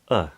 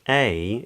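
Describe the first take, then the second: First: It is said with a weak schwa. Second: It is said with a full vowel. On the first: "is often pronounced as uh" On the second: "a word like a"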